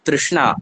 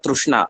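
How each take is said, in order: First: The first syllable sounds like 'tri'. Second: The first syllable sounds like 'tru'. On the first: "Ri- Rikara"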